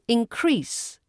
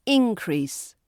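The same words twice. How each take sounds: First: InCREASE, stress at the end; stress on second syllable. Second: INcrease, stress up front; stress on first syllable. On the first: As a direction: say "Increase" as the verb, in-CREASE. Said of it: "But as a verb". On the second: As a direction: say "Increase" as the noun, IN-crease. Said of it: "As a noun". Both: Shown as a demonstration.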